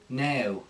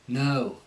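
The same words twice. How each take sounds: First: The vowel sounds like a prim E-A-H glide. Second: The O vowel starts with an uh sound. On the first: The speaker calls it wrong. "they go a little bit too proper with it" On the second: The speaker calls it right. "with the Cockney, what will happen is there'll be like an uh"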